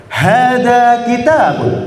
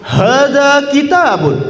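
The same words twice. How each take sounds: First: Slow, bright model line; the first take, less spirited; eager demo. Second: Higher, slow and full of energy; more spirited. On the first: Teacher's first take before asking for more spirit. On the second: Teacher asking the class for more spirit, excited. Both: Shown as a demonstration. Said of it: "Yang lebih semangat".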